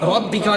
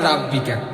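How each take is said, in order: First: The first syllable has a heavy, rounded vowel. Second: The first syllable has a light, open vowel. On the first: The speaker calls it right. "হবে ফাসল লিলি রব্বিকা" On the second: The speaker calls it wrong. "রাব্বিকা না ভাই"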